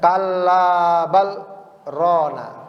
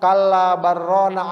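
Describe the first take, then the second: First: A brief stop without breath comes after 'bal'. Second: 'bal' runs straight into 'rana' with no stop. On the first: The words 'bal' and 'rana' stay clearly separate. The speaker calls it right. "Berhenti sejenak tanpa napas" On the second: It sounds as if the words say 'baron'. The speaker calls it wrong. "kalau disambung"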